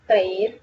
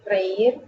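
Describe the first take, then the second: First: Said in the usual way. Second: Reír with the stress on ÍR. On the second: Shown as a demonstration. Teacher stressing the accented í in reír. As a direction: stretch and stress the ÍR of Reír, rising. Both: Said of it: "Los infinitivos terminados en eir".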